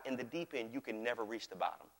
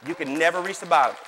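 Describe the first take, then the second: First: Low, soft statement; hushed teaching. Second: Loud, punched declaration; emphatic preaching. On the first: Pastor teaching on the deep end of God's kingdom, hushed teaching. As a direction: let it sink down quietly. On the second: Pastor driving home the depth of God's kingdom, emphatic preaching. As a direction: proclaim it with force. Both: Real, not acted.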